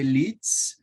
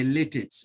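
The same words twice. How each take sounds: First: "Litz" as one syllable; German pronunciation. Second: "Littitz" in two syllables, LIT-its; Jamaican pronunciation. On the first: Host explaining the school's German name, German pronunciation of "Litz". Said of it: "the Germans would say Litz". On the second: Host telling how Jamaica says it, Jamaican pronunciation of "Littitz". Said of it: "here in Jamaica, we say". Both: Shown as a demonstration.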